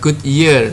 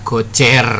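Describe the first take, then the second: First: The name is said in an English-like way. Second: The name is said in a Javanese-style way. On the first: This is the name as sold on the market. "Yang ada di pasaran itu adalah Goodyear" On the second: This is how Javanese people call it. "Orang Jawa nyebutnya Gocer"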